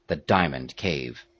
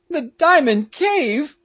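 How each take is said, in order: First: Said in the usual way. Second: High, loud, drawn-out alarm; slow, high cry of disbelief; shocked Peterkin cry. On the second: A narrator's reading. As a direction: echo it back in high-pitched dismay. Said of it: "cried Peterkin".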